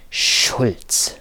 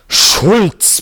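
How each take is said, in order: First: Hoarse excited whisper; creaky whisper. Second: Roared name, high and loud; roaring. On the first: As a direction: rasp the name under your breath. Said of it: "flüsterte er heiser vor Erregung". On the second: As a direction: roar the name at him. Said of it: "brüllte er". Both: A narrator's reading.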